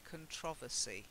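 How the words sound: It is said the way some Brits say it. "some Brits, like me, say controversy"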